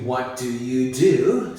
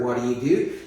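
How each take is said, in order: First: The phrase is said slowly and carefully. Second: The phrase is said quickly and run together. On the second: "when we speak faster"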